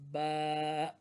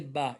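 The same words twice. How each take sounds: First: The vowel is drawn out longer. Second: The vowel is short and clipped. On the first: The speaker calls it right. "apply a little bit length, increase the length" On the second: The speaker calls it wrong. "Don't say ba. It's not ba"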